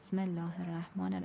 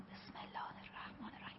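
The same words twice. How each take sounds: First: It is soft but spoken with a voiced tone. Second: It is whispered, with no voiced tone. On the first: This does not count as quiet recitation. The speaker calls it wrong. "این صدا ببینید جوهره داره" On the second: This counts as quiet recitation. The speaker calls it right. "ببینید صدای من جوهره نداره"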